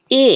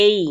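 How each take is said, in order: First: Letter এ as a short, single vowel; common mispronunciation. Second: এই as a gliding "ay-ee"; correct letter name. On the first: Teacher shows students how এ should not sound, common mispronunciation. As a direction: say এ without the closing glide. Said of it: "এটা এ হবে না". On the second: Teacher shows the correct name of A, gliding এই. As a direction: glide from এ into a closing ee on এই. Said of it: "এটা হবে এই". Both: Shown as a demonstration.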